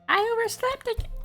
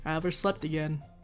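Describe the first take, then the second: First: It is said in a put-on character voice. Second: It is said in his normal voice.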